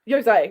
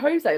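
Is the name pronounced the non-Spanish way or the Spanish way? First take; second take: non-Spanish; Spanish. First: The name is pronounced the non-Spanish way. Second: The name is pronounced the Spanish way. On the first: It is how the name's owner says it. The speaker calls it right. "we're now getting the uh official pronunciation" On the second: It treats the name as a Spanish name. The speaker calls it wrong. "everyone's calling you Jose, like you're a little Spanish man"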